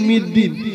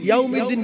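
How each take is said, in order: First: The word is said without the 'yaw' syllable. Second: The word is said with the full 'yaw' syllable. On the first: The speaker calls it wrong. "বলছে মালিক মিদ্দিন" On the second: The speaker calls it right. "ইয়াউমিদ্দিন বলে না"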